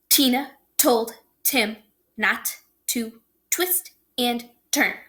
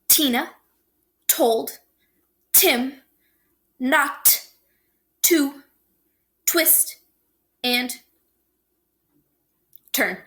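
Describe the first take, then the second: First: The sentence is spoken somewhat faster. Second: The sentence is spoken slowly. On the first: "Try it again a little faster" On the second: "I'm going to say it slower first"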